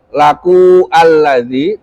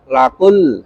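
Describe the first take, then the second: First: The vowel is pronounced, splitting the words apart. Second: The vowel is dropped, joining the words directly. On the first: The speaker calls it wrong. "tidak dibaca laku alladzi" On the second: The speaker calls it right. "tapi langsung lakul"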